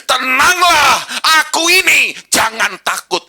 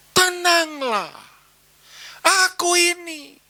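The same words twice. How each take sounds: First: High, loud proclamation; commanding call. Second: Slow, drawn-out and steady; slow calm assurance. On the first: Jesus calls to frightened disciples, loud and commanding. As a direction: call it out boldly over the storm. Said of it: "ini perkataan Yesus". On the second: Jesus reassures disciples, slow and calm. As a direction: let each word land gently. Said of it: "Yesus seisok ngomong". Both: Acted.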